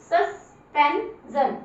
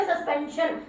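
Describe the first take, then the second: First: सस्पेंजन drawn out slowly with a ज sound; correct slow reading. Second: सस्पेंशन said with a श sound, marked wrong; wrong reading. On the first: Teacher giving the right reading to class, slowly. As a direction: stretch सस्पेंजन out with ज. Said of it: "जैसे बोलोगे सस्पेंजन". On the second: Teacher showing pupils the wrong way, softly. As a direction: say सस्पेंशन with श as the mistake. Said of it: "सस्पेंशन नहीं". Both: Shown as a demonstration.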